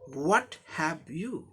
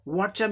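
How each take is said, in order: First: The phrase is said as three separate words. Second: The phrase is squeezed into one quick syllable. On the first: It is the formal version. "इतना बड़ा व्हाट हैव यू" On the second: It is casual, highly informal talk. "ये fast speech के लिए इस तरह का expression वो लोग बोलते हैं।"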